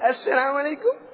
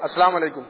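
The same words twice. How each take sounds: First: The greeting sounds sweet and warm. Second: The greeting sounds flat and plain.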